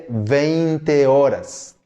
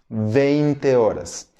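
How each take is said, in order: No difference in how they are said.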